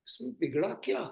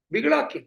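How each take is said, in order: First: Said in the usual way. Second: बिगड़ा क्या? louder and higher, बिगड़ा hit hard; emphatic repeat. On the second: Shown as a demonstration. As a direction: push बिगड़ा क्या? out as a challenge.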